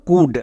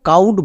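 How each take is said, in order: First: Short u vowel with a silent l. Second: An ow vowel with a silent l. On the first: The speaker calls it right. "তাহলে এর উচ্চারণ কি দাঁড়ালো? কুড।" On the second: The speaker calls it wrong. "একে আমরা কেউ কাউড বা ক্লাউড এরকম উচ্চারণ করব না"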